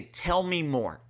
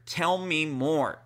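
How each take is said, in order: First: Said in the usual way. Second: Slow, gentle tell me more; gentle invitation. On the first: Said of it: "and you say". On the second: Shown as a demonstration. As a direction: invite her to open up, slowly. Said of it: "three words that will completely turn your relationship around".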